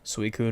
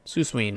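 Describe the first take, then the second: First: The name ends with a 'koon' sound. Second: The name ends with a 'ween' sound. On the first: The speaker calls it right. "I made sure I said it that way" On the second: The speaker calls it wrong. "me and Joey always used to call it"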